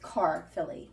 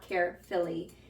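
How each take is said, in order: First: It begins with car, then filly. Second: It sounds like the word carefully. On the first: The speaker calls it right. "It's carfilly cheese" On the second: The speaker calls it wrong. "It's not carefilly"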